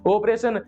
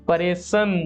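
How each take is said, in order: First: The word starts with its opening o vowel. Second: The opening o vowel is dropped entirely. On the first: "आप बोलोगे ऑपरेशन" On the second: "अपना बूढ़े ने पूछो जाना, पता क्या बोले"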